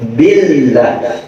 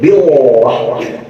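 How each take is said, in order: First: The L sound is thin and light. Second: The L sound is thick and heavy. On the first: The speaker calls it right. "Ba-nya jar, maka makin tipis" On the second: The speaker calls it wrong. "Nah itu kan lamnya tebel, nggak boleh"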